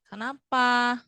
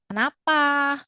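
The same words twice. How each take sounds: First: Said in the usual way. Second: Raised, pleading questioning tone; expressive question. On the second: Shown as a demonstration. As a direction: ask it with a worried, almost tearful face. (pertanyaan dengan ekspresi cemas) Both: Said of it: "Jangan lupa pakai ekspresi ya".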